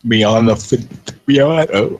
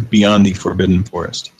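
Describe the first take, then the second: First: Words stretched by a yawn. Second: Said in the usual way. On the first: Real, not acted. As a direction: read it mid-yawn, slowly. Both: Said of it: "I'm yawning".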